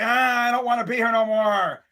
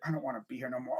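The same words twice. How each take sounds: First: Reluctant announcer. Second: Low, soft mumbled aside; reluctant aside. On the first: Fan imagining Joe Buck in the booth, reluctant. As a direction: stretch it out like a fed-up announcer. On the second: Fan imagining Joe Buck in the booth, reluctant and low. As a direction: drop it low, as if off the microphone. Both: Acted. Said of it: "imagine him in the freaking booth".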